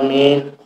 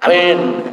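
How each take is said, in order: First: It is said slowly and with deep feeling. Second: It is said plainly, without much feeling. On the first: The person prays with true faith and devotion. The speaker calls it right. "Nek sing khusyuk, sing iman iku nggih. ... Khusyuk ngoten" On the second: The person only fulfils the obligation. The speaker calls it wrong. "sing Islam tok"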